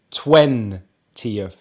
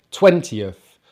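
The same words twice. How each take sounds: First: "twentieth" slowly as TWEN, pause, tieth; stress on first part. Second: Said in the usual way. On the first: Shown as a demonstration. Teacher showing stress to learners, "twentieth" broken up, stressed on twen. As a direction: split "twentieth", weight on twen. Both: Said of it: "we stress the first part of the number".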